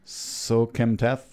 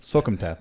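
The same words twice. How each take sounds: First: Drawn-out, syllable by syllable Sokemtath; feeling out a hard name; slow careful name. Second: Said in the usual way. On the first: Shown as a demonstration. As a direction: sound out the unfamiliar surname slowly. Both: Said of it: "I gotta say it slow first".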